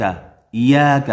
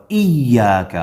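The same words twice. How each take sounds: First: ایاک said without the doubled ya; wrong ایاک. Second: ایاک with hamza joined and doubled ya; correct ایاک. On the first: Teacher shows students the wrong ایاک. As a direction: drag ایاک without the shadda. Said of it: "ایاک نہیں ہے". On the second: Teacher shows the right ایاک with doubled ya. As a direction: stress the shadda in ایاک. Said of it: "تشدید ہے یا کے اوپر". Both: Shown as a demonstration.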